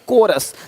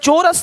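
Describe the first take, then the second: First: The word begins with a k sound. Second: The word begins with a ch sound. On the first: The speaker calls it right. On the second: The speaker calls it wrong. "चोरस नहीं"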